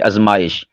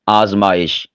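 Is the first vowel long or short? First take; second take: short; long. First: The first vowel is a short 'a'. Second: The first vowel is a long 'aa'. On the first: The speaker calls it wrong. "ये नहीं कहा कि आज़माइश ना, हमज़ा ये अलिफ मद्दा है ना" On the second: The speaker calls it right. "देखिए मैंने कैसे बोला है"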